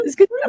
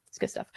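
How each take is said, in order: First: "It's good stuff" squeaked much higher and louder; silly high voice. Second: Said in the usual way. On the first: Pretend. Same words in silly voice.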